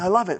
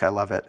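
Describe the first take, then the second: First: It sounds genuinely excited and enthusiastic. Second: It sounds flat and unconvincing.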